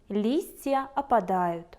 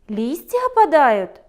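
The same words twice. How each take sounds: First: It is said with a falling, statement-like tune. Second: It is said with a surprised, questioning tune. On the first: The speaker reports what is happening. "видите опадающую листву и пишете в тетради" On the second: The speaker is surprised and asks whether it is happening. "удивленно спросите вы"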